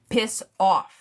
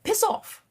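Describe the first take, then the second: First: It is said in the speaker's ordinary accent. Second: It is said in a British accent. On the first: The speaker calls it wrong. "You can't just say it regular" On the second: The speaker calls it right. "you gotta say it with the British accent. ... Just like that"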